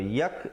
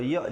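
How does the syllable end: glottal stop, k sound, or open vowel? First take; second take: k sound; glottal stop. First: The syllable ends with a k sound. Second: The syllable ends with a glottal stop. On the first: "Kalau yak jadi huruf kaf" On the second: "Kalau ya jadi huruf hamzah"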